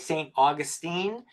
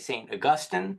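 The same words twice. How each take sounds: First: It uses the pronunciation heard in Florida. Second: It uses a pronunciation not heard locally. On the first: This is how the locals say it. The speaker calls it right. "down in Florida they say Saint Augustine, uh, and they say it properly" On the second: This is how an outsider habitually says it. The speaker calls it wrong. "I always want to say Saint Augustine"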